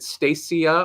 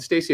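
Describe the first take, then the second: First: Stacia as STAY-shuh, with a sh sound; second option of the name. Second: Stacia as STAY-see-uh, with an s sound; first option of the name. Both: Shown as a demonstration. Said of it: "is it Stacia or Stacia".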